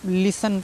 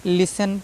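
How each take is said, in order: No difference in how they are said.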